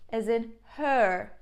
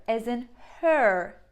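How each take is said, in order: Both takes have the same delivery.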